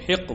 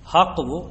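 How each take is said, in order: First: The first vowel is a short 'i'. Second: The first vowel is an open 'a'. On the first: "हा के कसरे और फतह के साथ" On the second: "हा के कसरे और फतह के साथ"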